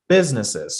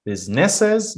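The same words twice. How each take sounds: First: Businesses with BUS stressed and a falling tune; stress on first syllable. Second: Businesses? said high, like a question; wrong questioning tune. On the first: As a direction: lean on BUS, let businesses fall. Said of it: "stress on the first syllable". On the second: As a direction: ask it, pitch up on Businesses. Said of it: "No, businesses". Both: Shown as a demonstration.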